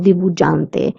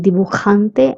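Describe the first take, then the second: First: The j sounds like an English j. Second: The j is a throaty k-like sound. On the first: The speaker calls it wrong. "and not" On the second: The speaker calls it right. "That's why I'm saying"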